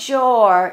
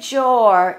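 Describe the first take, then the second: First: The vowel sounds like 'or'. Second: The vowel sounds like 'or'.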